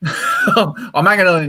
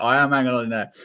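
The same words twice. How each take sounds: First: Laughing. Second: "am" pressed firmly, rest plain; stress on am. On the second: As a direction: lean on the word am to insist. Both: Real, not acted.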